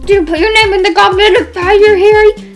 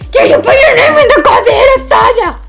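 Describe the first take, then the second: First: The question is asked calmly. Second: The question is asked angrily and forcefully.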